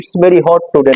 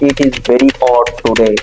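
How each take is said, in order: First: The words 'it is' are contracted. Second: The words 'it is' are said in full. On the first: The speaker calls it wrong. "আমরা অনেকে বলি it's very hot today" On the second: The speaker calls it right. "না"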